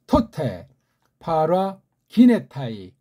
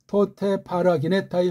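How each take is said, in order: First: The words are read slowly, one by one. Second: The words are read quickly, run together. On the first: "천천히 읽어드렸어요" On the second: "빨랑 한번 읽어볼까요? 이게 이제 보통 속도죠"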